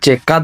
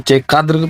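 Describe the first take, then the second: First: The word ends without the final r sound. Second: The word ends with an audible r sound. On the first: This is the casual conversational form. "जब गुफ्तगू की जाती होती है तो फिर चेकाद्र को चेकाद बोल देते हैं, रा को हज कर देते हैं" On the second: This is the full standard form. "चेकाद्र को चेकाद्र बोलते हैं"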